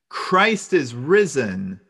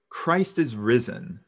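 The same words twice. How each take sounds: First: It is said a little louder. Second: It is said at the softest level.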